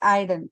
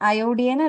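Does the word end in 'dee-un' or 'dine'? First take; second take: dine; dee-un. First: The word ends with a 'dine' sound. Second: The word ends with a 'dee-un' sound. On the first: The speaker calls it right. "It's അയഡൻ" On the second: The speaker calls it wrong. "അയോഡിയൻ അല്ല"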